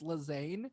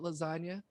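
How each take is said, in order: First: It sounds like 'la-zahn', without a final vowel. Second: It sounds like the food word 'lasagna'. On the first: This is probably the real pronunciation. "we think it's Lazane" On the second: This is a playful nickname. "I like to call it lasagna"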